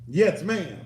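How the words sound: It is said in an annoyed, angry tone. The child resents the order. The speaker calls it wrong.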